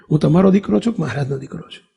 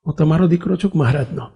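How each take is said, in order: First: Faster, pressing for a clear answer; quick insistent question. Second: Said in the usual way. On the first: Retold or imitated. Son pressing his mother to state clearly whose son he is, fast. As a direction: rattle it off to settle the point. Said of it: "ચોખવટ કરવા જગ્યાએ". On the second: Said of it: "mummy".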